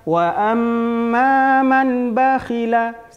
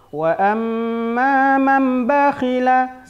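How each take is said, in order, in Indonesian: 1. Huruf n dibaca jelas sebelum b. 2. Huruf n berubah menjadi m tanpa dengung sengau. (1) "Tidak boleh dibaca wa amma man bakhila, salah" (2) "hanya memasukkan saja tanpa didengungkan"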